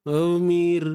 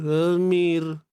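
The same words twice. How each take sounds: First: The first vowel is said with unrounded lips. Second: The same.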